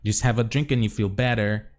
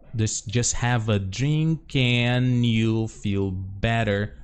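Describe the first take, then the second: First: The phrase is said at natural speed. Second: The phrase is said slowly and carefully.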